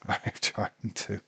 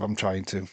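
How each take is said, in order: First: Slow, softer, laughed through; laughing whisper. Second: Said in the usual way. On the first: Real, not acted. Sleepy fan answering himself, laughing softly. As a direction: giggle it out under your breath. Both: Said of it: "Hang in there, [name]".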